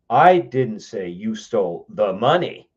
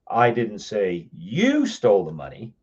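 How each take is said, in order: First: The word "money" is stressed. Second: The word "you" is stressed. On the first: Something other than the money was stolen. "but you stole something else" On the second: Someone else stole it. "but I know somebody else did"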